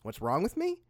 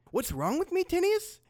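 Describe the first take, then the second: First: Said in the usual way. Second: High, rising incredulous retort; indignant. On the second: Acted. Fighter answering his attacker, indignant. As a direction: throw the question back, worked up.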